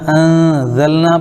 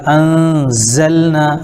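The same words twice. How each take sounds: First: Said in the usual way. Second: انزلنا said slowly with a long whistling z; whistled z, slow. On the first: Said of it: "پڑھ دیے تو غلط ہو جائے گا". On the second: Shown as a demonstration. Teacher showing the correct whistled z in انزلنا. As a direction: stretch the z of انزلنا into a hiss. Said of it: "وہاں پہ صفت ہے سیٹی کی".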